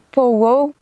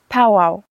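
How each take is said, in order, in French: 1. Il utilise un accent français, en prononçant le O. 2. Il utilise un accent québécois, sans prononcer le O. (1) "les Français ont plus tendance à prononcer pow-wow en prononçant le O" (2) "pour les Québécois, la façon de le prononcer, c'est plus pow-wow"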